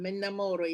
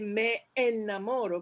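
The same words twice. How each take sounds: First: The two words run together. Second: The two words are kept apart. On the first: The speaker calls it right. "you join the two" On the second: The speaker calls it wrong. "you don't say me enamoro"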